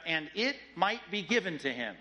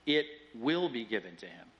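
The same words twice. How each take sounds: First: "might" set apart and leaned on; stress on "might". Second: "will" firm and deliberate, in a lower voice; stress on "will". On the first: Preacher deliberately misreading the verse to the congregation, stress on "might". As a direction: lean on "might" as if reading it from the page. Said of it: "Underline the word might". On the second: Preacher correcting the misread verse for the congregation, firm stress on "will". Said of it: "Is that what it says". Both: Shown as a demonstration.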